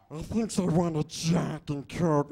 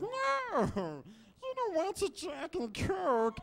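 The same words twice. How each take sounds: First: Loud, slow, rasping creature voice; hammed-up split-personality creature, the harsh side; Schmiegel. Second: Very high, slow creature whine; hammed-up split-personality creature, the timid side; Schmiegel. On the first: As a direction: growl out the craving. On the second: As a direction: plead against it in a squeaky falsetto. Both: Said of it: "a nice impression of Schmiegel".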